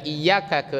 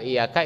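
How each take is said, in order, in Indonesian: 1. Bunyi y ditahan lama dan dobel. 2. Bunyi y pendek dan tunggal. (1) "dari iyyaka" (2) "ke iyyaka"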